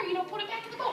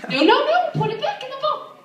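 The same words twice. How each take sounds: First: High, softer coaxing; patient request. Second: Loud, very high scolding; getting mad. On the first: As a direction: coax a child nicely in a high voice. First, patient take of the order. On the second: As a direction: snap a frantic high-pitched order at a child. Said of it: "I'm, like, getting mad". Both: Retold or imitated.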